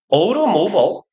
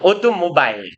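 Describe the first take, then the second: First: The ending is reduced, sounding like 'mobble'. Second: The ending is said fully, sounding like 'mobile'. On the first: "미국식 영어의 예를 읽는 방법은 모블에 가까워요" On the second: "인디아, 오토모바일 이렇게 읽거든요"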